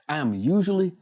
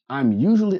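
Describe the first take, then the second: First: The words I am are said in full. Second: The words I am are contracted to I'm.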